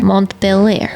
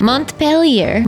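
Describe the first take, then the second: First: "Montpelier" flattened to mont-pill-EER; trying a pronunciation. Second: "Montpelier" sounded out slowly as mont-pell-YAIR; trying a pronunciation. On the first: Unsure of the name, trying "Montpelier" as mont-pill-EER. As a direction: try "Montpelier" with an -EER ending. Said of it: "I don't even know what that accent is". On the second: Didn't take French, trying out "Montpelier" as mont-pell-YAIR. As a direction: try "Montpelier" with a slow, higher-pitched -YAIR ending. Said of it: "I didn't take French". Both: Shown as a demonstration.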